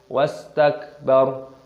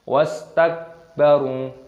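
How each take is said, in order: Both takes have the same delivery.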